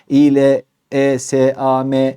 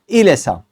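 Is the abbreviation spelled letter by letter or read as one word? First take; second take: letter by letter; one word. First: Each letter is named separately. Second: It is read smoothly as one word. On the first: The speaker calls it wrong. "TBM, TDK, ABD gibi söylemeyin ... İLESAM demeyecek" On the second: The speaker calls it right. "kelime okur gibi okuyun"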